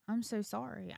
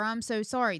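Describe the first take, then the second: First: Soft retold apology to the kids; sincere apology. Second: Emphatic example of what not to say; rejected apology. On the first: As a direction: apologize gently, softly. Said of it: "go to my kids and be like". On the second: Retold or imitated. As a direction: voice the wrong apology firmly. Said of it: "Now, I do not say".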